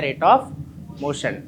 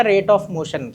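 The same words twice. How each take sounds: First: "Rate of motion" stretched out very slowly, word by word; slow dictation. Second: Said in the usual way. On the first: Shown as a demonstration. Teacher dictating the term to students, very slowly drawn out. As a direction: drag out "Rate of motion" so the class can write it down. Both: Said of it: "क्या आता है?".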